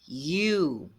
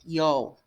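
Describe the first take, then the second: First: It is said with one long 'oo' vowel. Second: It is read letter by letter as 'yo-u'. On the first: The speaker calls it right. "A forma correta de se falar é you" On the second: The speaker calls it wrong. "como nós brasileiros iríamos ler"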